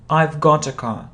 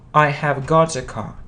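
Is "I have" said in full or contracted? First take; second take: contracted; full. First: "I have" is shortened to one syllable. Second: "I have" is said as two full words.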